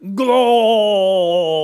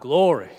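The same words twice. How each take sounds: First: It is shouted out very loudly. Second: It is said at moderate loudness.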